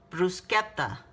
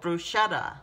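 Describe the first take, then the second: First: It is said with a slight Italian accent. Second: It is said with a plain English accent.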